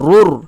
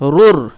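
First: The r is said heavy and full. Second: The r is said thin and light. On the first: The speaker calls it right. "এইভাবে মোটা করে উচ্চারণ করব" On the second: The speaker calls it wrong. "এরকম করব না"

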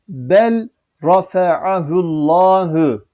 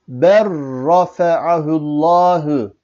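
First: The l is pronounced separately before the r. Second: The l merges into a doubled r sound. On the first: The speaker calls it wrong. "bu şekilde yazılır fakat bu şekilde okunmaz" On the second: The speaker calls it right. "Lam'ı okumadık, ra'yı 2 defa okumuş olduk"

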